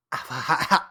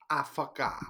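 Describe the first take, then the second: First: Ditzy drawn-out mock girlfriend voice. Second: Quieter mock airhead voice; softer ditzy girlfriend voice. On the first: How his girlfriend talks in his head, ditzy mock voice. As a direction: say it like an airhead. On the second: How his girlfriend talks in his head, softer mock voice. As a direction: murmur it like an airhead. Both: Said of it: "That's how she talks in my head".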